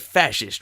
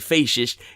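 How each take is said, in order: First: The first vowel is a short A. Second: The first vowel is not a short A. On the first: The speaker calls it right. "It's the short A" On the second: The speaker calls it wrong. "You don't say fascist"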